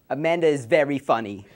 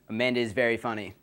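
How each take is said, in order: First: It is said in a put-on Jewish accent. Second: It is said in the speaker's ordinary voice.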